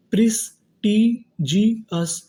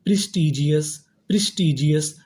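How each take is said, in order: First: prestigious split slowly as प्रिस, टी, जी, अस; separate, drawn-out parts of prestigious; syllable-by-syllable. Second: Said in the usual way. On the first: Shown as a demonstration. Teacher building prestigious for students, slow and split. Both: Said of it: "तो meaning क्या बनी".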